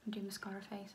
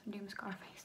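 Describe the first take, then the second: First: Mascara face. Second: Quiet, mouth open applying mascara; mascara face. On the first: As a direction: mouth stretched open for mascara. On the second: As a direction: say it mid mascara stroke, jaw dropped. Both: Real, not acted.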